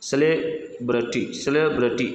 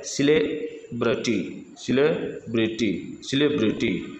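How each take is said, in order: First: सेलिब्रिटी starting with 'se'; US pronunciation. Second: Slow सेलिब्रिटी starting with 'si'; British pronunciation. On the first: Teacher models the US version, सेलिब्रिटी starting 'se'. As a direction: say सेलिब्रिटी as SE-le-bruh-tee. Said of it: "ये US उच्चारण है इसका". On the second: Teacher models British version, सेलिब्रिटी starting 'si', slowly. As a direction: say सेलिब्रिटी slowly as si-LEB-ri-tee. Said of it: "British उच्चारण सेलिब्रिटी होता है". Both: Shown as a demonstration.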